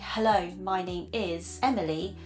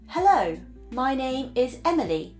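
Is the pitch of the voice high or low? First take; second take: low; high. First: Relaxed, casual delivery at a lower natural pitch. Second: Polished, formal delivery at a much higher pitch. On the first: The speaker is at ease, as with a friend. The speaker calls it right. "as you do when you are speaking to your friend" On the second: The speaker is nervous and afraid of being judged. The speaker calls it wrong. "the pitch is a lot higher"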